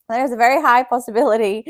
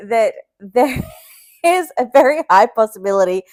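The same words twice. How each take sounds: First: Said in the usual way. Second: Laughing warning. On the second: Real, not acted. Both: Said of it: "be warned".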